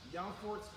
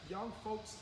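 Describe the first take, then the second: No difference in how they are said.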